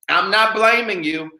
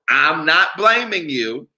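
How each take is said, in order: First: It is said at normal speed. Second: It is said slowly.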